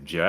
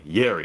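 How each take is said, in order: First: The name begins with a J sound. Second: The name begins with a Y sound. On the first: The speaker calls it wrong. "I don't want to say his name like Jerry" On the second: The speaker calls it right. "That's what, how I say his name"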